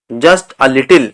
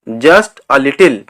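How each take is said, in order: Both takes have the same delivery.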